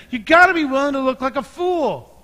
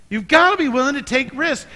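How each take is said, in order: First: Gotta punched high and loud, building on the line before; stronger urging, stress on gotta. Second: Gotta hit high and loud, to press the point; urging, stress on gotta. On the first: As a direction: push gotta even harder. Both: Real, not acted. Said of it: "repeated exhortation".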